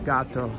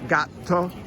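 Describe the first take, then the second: First: The T is short, as a single consonant. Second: The T is held long, as a double consonant. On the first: The speaker calls it wrong. "as opposed to gatto" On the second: The speaker calls it right. "Put a little bit more emphasis on that T to pronounce it properly"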